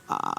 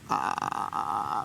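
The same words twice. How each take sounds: First: The voice is clear, with fully closed cords. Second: The voice is creaky, with loosely closed cords.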